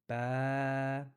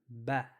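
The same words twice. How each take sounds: First: The vowel is drawn out long. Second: The vowel is short and clipped.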